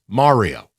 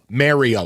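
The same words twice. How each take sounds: First: The first syllable sounds like 'car'. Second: The first syllable sounds like 'merry'. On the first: The speaker calls it right. "It's Mario" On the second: The speaker calls it wrong. "It's not spelled M E R R Y O, Mario, like Jello"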